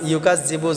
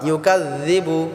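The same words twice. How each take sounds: First: The middle consonant is said as a z sound. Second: The middle consonant is a light dh sound. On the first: The speaker calls it wrong. "অনেকে আছি আমরা ইউকাযযিবু ইউকাযযিবু যা উচ্চারণ করি, এখানে যা হবে না" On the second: The speaker calls it right. "জাল হবে, পাতলা হবে।"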